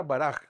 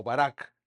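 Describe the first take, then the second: First: "Baraj" ending in a throaty j sound; Hebrew word pronunciation. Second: "Barak" ending in a hard k; alternative pronunciation. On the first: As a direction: say "Baraj" with final Spanish j. («Baraj» con jota final) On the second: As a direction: say "Barak" with a final k stop. («Barak» con ka final) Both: Shown as a demonstration. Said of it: "o Barak, esto, Barak".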